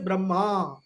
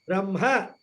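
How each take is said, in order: First: The final vowel is long. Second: The final vowel is short. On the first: It refers to the four-headed creator god. "the long A" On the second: It refers to the formless absolute. "which is a short A"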